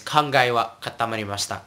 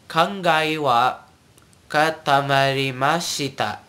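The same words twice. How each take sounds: First: Quick, run-together "katamarimashita"; said fast. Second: Slow, separated "katamarimashita", every vowel sounded; said slowly. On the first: Teacher repeats the example phrase, fast. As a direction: rattle off "kangai wa katamarimashita", the final i dropped. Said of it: "they say it faster". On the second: Teacher breaks the phrase down, slowly. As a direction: spell out "Kangai wa katamarimashita" slowly by ear. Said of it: "let me say it slowly". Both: Shown as a demonstration.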